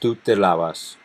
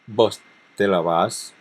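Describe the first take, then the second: First: The stress falls on the first syllable of lavas. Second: The stress falls on the last syllable of lavas. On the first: This is the tú form. "instead of the tú, where it would be in the first syllable" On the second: This is the vos form. "it would be in the last syllable with vos"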